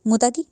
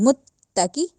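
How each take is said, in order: First: The t sound is short, not held. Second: The t sound is doubled and held. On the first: The speaker calls it wrong. "नहीं" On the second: The speaker calls it right. "इस तरह"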